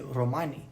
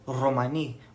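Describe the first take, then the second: First: The first R sound is soft and plain. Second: The first R sound is hard and strong. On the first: "some people just say Romani" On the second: "with that hard R sound"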